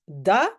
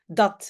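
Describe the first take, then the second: First: The final t is dropped. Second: The final t is clearly pronounced. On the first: It is informal in-between speech. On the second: It is the standard form.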